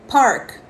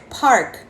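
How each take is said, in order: No difference in how they are said.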